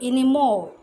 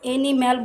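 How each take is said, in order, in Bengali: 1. শেষ অংশে দুর্বল 'o' স্বর আছে। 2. শেষ অংশে খোলা 'a' স্বর আছে। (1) "আমরা এখন বলবো এনিমল" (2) "এনিম্যাল বলেছিলাম"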